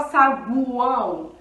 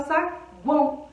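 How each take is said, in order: First: Saguão with the u as a full vowel, sa-gu-ão; strong u. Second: Saguão with the u hardly heard, sa-guão; weak u glide. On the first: Teacher testing the wrong form, strong u. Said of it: "A gente fala o U forte?". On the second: Teacher giving the natural saguão with weak u. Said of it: "o U, ele quase não aparece". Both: Shown as a demonstration.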